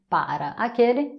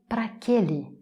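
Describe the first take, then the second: First: Both syllables of para are fully pronounced. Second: Pra and aquele fuse into one word.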